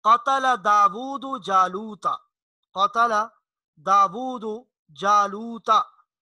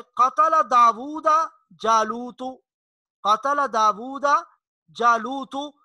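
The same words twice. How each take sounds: First: Slow recitation with दाऊद ending in u and जालूता ending in a; correct vowel marks. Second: Slow recitation with दाऊदा ending in a and जालूतु ending in u; wrong vowel marks. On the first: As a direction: recite कतल दाऊद जालूता slowly, stressing the final vowels. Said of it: "दाऊद के ऊपर पेश है और जालूता के ऊपर जबर है". (धीमे से: दाऊदु पर पेश, जालूता पर ज़बर) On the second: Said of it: "इसका माना बिल्कुल उलट जाता है". (धीमे से: दाऊदा पर ज़बर, जालूतु पर पेश) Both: Shown as a demonstration.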